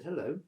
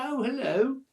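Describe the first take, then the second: First: Said in the usual way. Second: High, loud put-on hello; imitated girl's greeting. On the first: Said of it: "I said". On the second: Bedraggled girl to camper next day, imitated greeting. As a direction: mimic the girl's greeting, pitched well up. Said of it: "She said".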